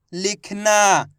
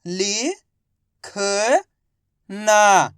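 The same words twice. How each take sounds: First: Said in the usual way. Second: लि-ख-ना drawn out slowly, each syllable apart; teacher sounding out लि-ख-ना. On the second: Shown as a demonstration.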